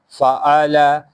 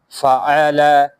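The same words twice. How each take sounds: No difference in how they are said.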